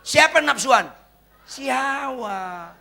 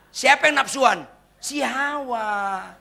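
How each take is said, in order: First: Slow teasing reveal; punchline repeated. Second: Si Hawa drawn out very slowly; slow teasing reveal; punchline. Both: Shown as a demonstration. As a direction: stretch Si Hawa for the joke. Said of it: "cari di kamus".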